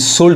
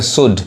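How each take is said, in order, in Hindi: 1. D से पहले L की आवाज़ सुनाई देती है। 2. D से पहले L की कोई आवाज़ सुनाई नहीं देती। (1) "शुल्ड नहीं कहेंगे" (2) "यहाँ पे एल साइलेंट है"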